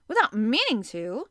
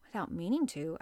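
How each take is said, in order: First: Louder, stress on "meaning" rising; voice raised a little. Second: Said in the usual way. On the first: A narrator's reading. Captain echoes the professor, voice raised a little. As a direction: throw "meaning" back at him, rising. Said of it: "raising his voice a little". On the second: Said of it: "I said".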